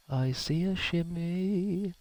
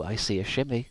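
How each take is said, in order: First: High, slow, drawn-out singsong; slow high drawl. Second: Said in the usual way. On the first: Pretend. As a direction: stretch it out up high. Spots a shimmy, repeats it.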